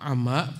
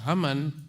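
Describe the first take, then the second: First: The final vowel is drawn out long. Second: The final vowel is short and clipped. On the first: It refers to a cloud above which there is nothing. "Kalau dibaca ama panjang" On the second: It means creation does not know where He was. "kalau dibaca haman"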